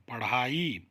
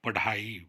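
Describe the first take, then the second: First: पढ़ाई said with the flapped aspirated ढ़; careful teacher's पढ़ाई with ढ़; correct ढ़ sound. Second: पढ़ाई said with a hard stopped consonant instead of ढ़; deliberately wrong पढ़ाई, no flap; wrong plain sound. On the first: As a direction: say पढ़ाई with a breathy flap ढ़. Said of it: "बिंदी लगानी पड़ेगी". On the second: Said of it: "पढ़ाई तो गलत". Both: Shown as a demonstration.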